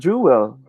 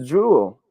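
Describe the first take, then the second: First: "jewel" broken into two syllables. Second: "jewel" run together as jool; one-syllable jewel. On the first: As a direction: say "jewel" as JOO-wel. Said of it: "not jewel". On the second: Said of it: "It should be pronounced as". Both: Shown as a demonstration.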